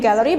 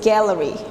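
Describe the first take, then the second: First: It is said with an Indonesian pronunciation. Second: It is said with an English pronunciation. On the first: The speaker calls it wrong. "Kalau Indonesia kita menyebutnya gallery" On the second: The speaker calls it right. "but in English we say that this is gallery"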